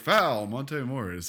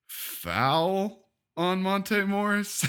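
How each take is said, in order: First: The announcement sounds plain and neutral. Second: The announcement sounds provocative, inviting booing.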